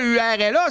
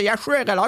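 First: U R L A starting straight on the U; U R L A as a mistaken spelling; spelled without H. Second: H U R L A starting on a clear H; H U R L A as the corrected spelling; spelled with H. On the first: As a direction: spell U R L A letter by letter, no H. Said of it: "c'est pas U R L A". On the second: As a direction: spell H U R L A letter by letter, H first. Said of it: "c'est H U R L A". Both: Shown as a demonstration.

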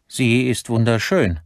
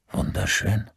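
First: High, emphatic admiration; son's high-pitched insistence; admiring protest. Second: Questioning, doubtful repeat; disbelieving echo. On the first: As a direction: insist on its beauty in a raised voice. Son defends the watch to father. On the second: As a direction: throw the word back as a question. Father echoes son's word in disbelief. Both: A narrator's reading.

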